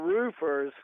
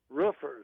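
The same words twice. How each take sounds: First: The vowel does not sound like a bark. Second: The vowel sounds like a dog's bark. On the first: This is how the workers themselves say it. The speaker calls it right. "We are roofers" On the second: This is how the boss says it. The speaker calls it wrong. "he references us as roofers"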